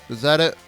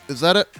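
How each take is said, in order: No difference in how they are said.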